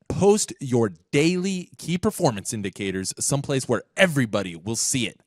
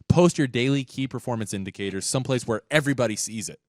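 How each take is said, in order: First: It is read like a charismatic, preaching pastor. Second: It is read in a plain, matter-of-fact way.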